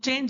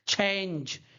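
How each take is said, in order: First: The ch sound is plain, without breath. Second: The ch sound is breathy, like chha. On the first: This is how Indian speakers say it. "Indian का accent थोड़ा अलग है" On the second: This is how native speakers say it. "वो लोग कैसे बोलते हैं"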